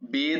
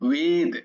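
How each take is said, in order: First: The word begins with a 'b' sound. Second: The word begins with a 'w' sound. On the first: The speaker calls it wrong. "নয়" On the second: The speaker calls it right. "তো ওয়া উচ্চারণ হয়"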